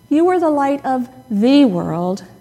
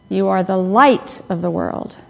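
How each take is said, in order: First: The stress is on "world". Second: The stress is on "light".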